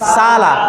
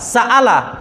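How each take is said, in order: First: A long vowel is held with no stop. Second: A full glottal stop separates the two vowels. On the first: "তাহলে আলিফ থাকলে সালা।" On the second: "এটা উচ্চারণ কি বলছি?"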